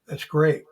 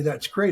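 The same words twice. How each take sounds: First: It is said sarcastically. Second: It is said sincerely.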